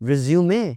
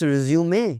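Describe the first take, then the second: No difference in how they are said.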